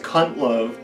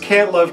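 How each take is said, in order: First: The first word has the vowel of 'hunt'. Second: The first word has the vowel of 'aunt'. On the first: The name becomes a crude joke. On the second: The name means he cannot make love. "it was it was Can't Love because he had erectile dysfunction"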